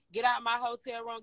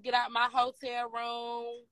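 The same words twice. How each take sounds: First: Said in the usual way. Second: Slow, drawn-out get out order; slow mock order. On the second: Imitating LaRue ordering the girls out, slow and drawn out. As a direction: stretch each word out like an eviction. Quoting LaRue kicking them out.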